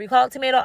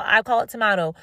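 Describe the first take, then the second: First: "tomato" said as toe-MAY-toe; "tomato" with a long A, toe-MAY-toe; tomato one way. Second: "tomato" said as tuh-MAH-toe; "tomato" with an AH vowel, the British way; tomato the other way. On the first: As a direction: say "tomato" the American way, MAY stressed. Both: Shown as a demonstration.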